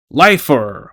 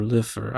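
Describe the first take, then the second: First: Lifer with first syllable like "life"; "Lifer" rhyming with "knifer"; long-I Lifer. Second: Lifer with first syllable like "lift", said softer; "Lifer" rhyming with "differ"; short-I Lifer. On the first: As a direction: say "Lifer" as LIE-fer. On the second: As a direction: say "Lifer" quietly as LIFF-er. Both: Shown as a demonstration. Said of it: "I don't know how you pronounce it".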